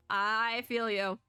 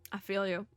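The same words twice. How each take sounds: First: Long, slow I before "feel you"; slow "I feel you", the I held long; drawn-out emphatic sympathy. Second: Said in the usual way. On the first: Real, not acted.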